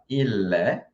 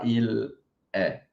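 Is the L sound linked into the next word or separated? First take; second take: linked; separated. First: The L runs straight into the following vowel. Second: The two words are said apart, without linking. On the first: The speaker calls it right. "a gente também junta com o é. A gente vai falar il est" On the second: The speaker calls it wrong. "A gente não fala il est"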